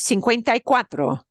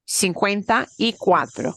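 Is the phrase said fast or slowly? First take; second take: fast; slowly. First: The phrase is said fast and run together. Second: The phrase is said slowly and carefully. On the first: "Somebody says it fast to you in a marketplace" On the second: "you can slow it down now"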